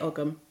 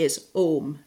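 First: It uses the anglicized spelling-based pronunciation. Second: It uses the modern Irish pronunciation. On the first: This is the form many people use casually. "But a lot of people just say Ogham" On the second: This is the form most common in Ireland today. "The pronunciation that's most common in Ireland ... that's like the modern Irish pronunciation"

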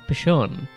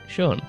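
First: The name begins with a spoken P sound. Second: The name begins with no P sound. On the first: The speaker calls it wrong. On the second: The speaker calls it right.

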